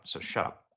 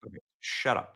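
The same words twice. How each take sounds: First: Dismissive whisper. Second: Said in the usual way. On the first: Real, not acted. Cutting off a clip.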